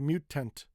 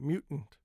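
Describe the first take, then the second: First: The T before the N is fully released. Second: The T before the N is held back. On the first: The speaker calls it wrong. "We don't say mutant" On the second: The speaker calls it right. "We say mutant"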